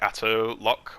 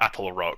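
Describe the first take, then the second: First: The second word starts with an L sound. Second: The second word starts with an R sound. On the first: The speaker calls it wrong. "I was calling it the like Atto Lock or something" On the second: The speaker calls it right. "It's actually the Atoll Rock"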